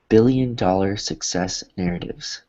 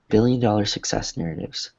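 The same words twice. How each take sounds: First: The phrase is said at a slower pace. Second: The phrase is said quickly in one breath.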